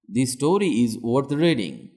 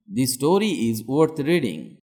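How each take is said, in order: Both takes have the same delivery.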